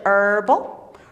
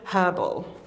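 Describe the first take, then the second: First: It is said with an American English pronunciation. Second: It is said with a British English pronunciation. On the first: "American English herbal" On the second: "British English herbal"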